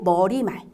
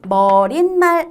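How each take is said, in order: First: No n sound is inserted before 말. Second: An n sound is inserted before 말. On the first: The speaker calls it right. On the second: The speaker calls it wrong. "머릿말 아니고"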